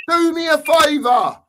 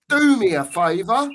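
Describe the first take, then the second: First: Real anger. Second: Said in the usual way. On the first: Real, not acted. Fan losing his temper with his club, angrily shouted. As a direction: Do me a favour, repeated much higher and louder in real anger. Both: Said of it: "it makes me so angry".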